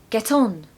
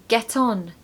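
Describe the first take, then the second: No difference in how they are said.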